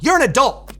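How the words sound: It is said with an American pronunciation. "But in the U S, it'd be more"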